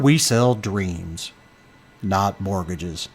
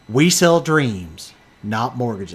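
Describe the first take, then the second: First: It is said in a low radio voice. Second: It is said in his normal voice.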